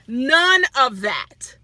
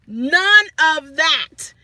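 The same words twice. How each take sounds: First: Each word stretched and firm; slow, deliberate None of that; emphatic, slow. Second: None of that, slow and louder; louder emphatic repeat. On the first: Telling viewers what the manager never said, slow and firm. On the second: Repeating to the viewers that he never did, slow and louder. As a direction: hammer it home harder. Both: Real, not acted.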